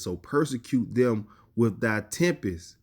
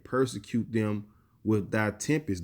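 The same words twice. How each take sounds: First: Slow, drawn-out scripture line; solemn reading. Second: Said in the usual way. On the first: Acted. Preacher reading the verse aloud, slow and solemn. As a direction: stretch "persecute" out solemnly.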